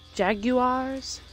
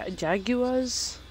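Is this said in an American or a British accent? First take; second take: British; British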